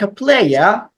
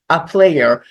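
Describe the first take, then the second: First: It is said with a British accent. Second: It is said without a British accent.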